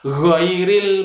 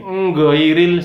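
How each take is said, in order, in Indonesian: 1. Kata ini dimulai dengan bunyi gh yang dari tenggorokan. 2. Kata ini dimulai dengan bunyi sengau ng. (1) "Yang benar adalah ghairil maghdu" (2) "Nggairil salah karena bukan ng"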